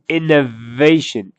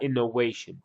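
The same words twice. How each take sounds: First: The middle consonant sounds like a V. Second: The middle consonant sounds like a W. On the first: The speaker calls it right. "It's innovation. innovation has a V" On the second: The speaker calls it wrong. "It's not innovation. You're saying with a W"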